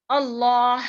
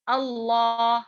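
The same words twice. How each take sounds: First: اللہ with no ha sounded at the end, louder; ha dropped. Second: اللہ with the final ha cut off sharply; wrong clipped ha. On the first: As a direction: let اللہ end without the ha. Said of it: "اس طریقے سے نہیں پڑھتے". (آخر کی ہا ادا نہ کرنا) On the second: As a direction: chop the end of اللہ. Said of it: "ایسا پڑھ کو ٹکا ڈالتے ہیں". (غلط انداز میں ہا کاٹ دینا) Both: Shown as a demonstration.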